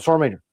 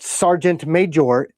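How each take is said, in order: First: It is run together as one word. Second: It is said as two separate words.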